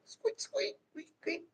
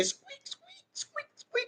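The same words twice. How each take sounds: First: Very high, soft mouse squeaks; very high, soft little squeaks; squeaking again. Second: Very high, tiny squeaking rat; soft, very high rodent squeaks. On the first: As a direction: try the squeak once more, tiny and soft. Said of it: "Is that a mouse or a rat?". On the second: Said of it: "How they say". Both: Pretend.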